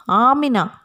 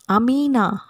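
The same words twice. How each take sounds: First: "Amina" restarted with a long, stressed AA; corrected Amina. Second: "Amina" with a short first A, stress on MEE; mispronounced Amina. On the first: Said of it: "we should pronounce A". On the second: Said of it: "we should not pronounce Amina". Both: Shown as a demonstration.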